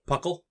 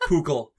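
First: The first syllable sounds like 'puck'. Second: The first syllable sounds like 'poo'. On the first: "It says it's related to the name Puck" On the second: "Poo sounds the best"

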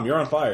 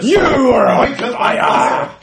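First: It is said flatly, with little energy. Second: It is said with lots of energy and gusto. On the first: The speaker calls it wrong. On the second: The speaker calls it right.

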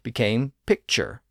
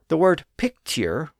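First: The middle consonant is a CH sound. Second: The middle consonant is a plain T sound. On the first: This is the modern pronunciation. "with its modern CH sound" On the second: This is the older pronunciation. "with its T sound"

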